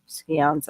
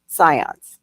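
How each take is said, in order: First: "scions" said as SKEE-onz; mistaken pronunciation. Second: "Scions" said as SIGH-ons; corrected pronunciation. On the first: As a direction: say "scions" with a hard sk and an ee. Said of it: "I forget how they say it". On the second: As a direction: say "Scions" with a silent c and a long i. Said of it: "that's what they're called". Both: Shown as a demonstration.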